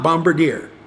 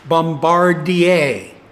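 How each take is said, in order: First: The name is pronounced the English way. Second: The name is pronounced the French way. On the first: The speaker calls it wrong. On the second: The speaker calls it right. "because it's a French Canadian company that makes it, it is typically pronounced"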